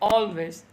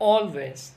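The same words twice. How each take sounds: The two takes are said the same way.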